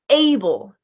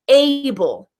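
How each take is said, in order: First: The vowel is a full, stressed 'ay' sound. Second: The same.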